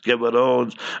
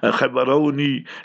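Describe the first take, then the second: First: The name is said the usual outside way. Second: The name is said the local way.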